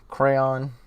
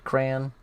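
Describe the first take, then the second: First: The second syllable rhymes with dawn. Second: The second syllable rhymes with man. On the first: "With two syllables, the second syllable sounds like dawn" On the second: "Crayon rhymes with man"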